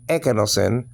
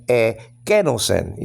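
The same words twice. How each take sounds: First: Ekenosen with the opening E stressed; wrong first-syllable stress. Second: Slow ekenosen, split as e-KE-nosen; stress on second syllable. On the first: Teacher showing what not to say, ekenosen stressed on its first syllable. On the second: Teacher showing the right accent, ekenosen slowly stressed on KE. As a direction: punch the KE in ekenosen after a drawn-out E. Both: Shown as a demonstration. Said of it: "the accent is on the second syllable".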